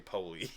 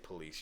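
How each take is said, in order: First: The word police is said the hood way. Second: The word police is said the standard way. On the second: "you don't say police"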